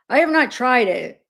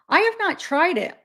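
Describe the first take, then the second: First: It is said in a put-on deeper voice. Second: It is said in the speaker's normal voice.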